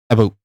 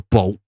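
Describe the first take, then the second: First: A faint vowel sound comes before 'boat'. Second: No vowel sound comes before 'boat'. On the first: The speaker calls it right. "you have to have a slight a in there. A boat like that" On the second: The speaker calls it wrong. "you can't just go boat"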